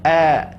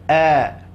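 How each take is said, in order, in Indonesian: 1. Bunyinya tipis, diucapkan sambil tersenyum. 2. Bunyinya tipis, diucapkan sambil tersenyum.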